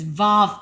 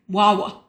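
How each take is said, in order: First: The name begins with a V sound. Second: The name begins with a W sound. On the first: The speaker calls it wrong. "I would pronounce it as Vav" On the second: The speaker calls it right. "but it's actually Wawa. It's a, it's a W um, sound"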